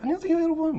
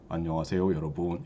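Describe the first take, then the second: First: It is said in a high, light, sped-up voice. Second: It is said in a normal, lower voice.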